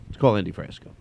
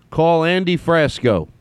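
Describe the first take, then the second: First: Said in the usual way. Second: High, slow, deliberate command. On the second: Real, not acted. Host telling the phone to call Andy, deliberate voice command. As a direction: enunciate it for a machine to catch.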